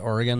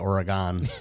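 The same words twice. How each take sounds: First: Oregon is pronounced the way residents say it. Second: Oregon is pronounced the way outsiders say it. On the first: This is the pronunciation the residents prefer. The speaker calls it right. "They like it when you say Oregon" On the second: This is the pronunciation the residents dislike. The speaker calls it wrong. "They don't like it when you say Oregon"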